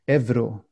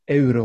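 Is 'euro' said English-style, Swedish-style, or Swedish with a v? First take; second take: Swedish v; Swedish. First: Euro is pronounced with a v sound. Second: Euro is pronounced the Swedish way. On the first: "which would be more natural for Sweden" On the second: "which would be more natural for Sweden"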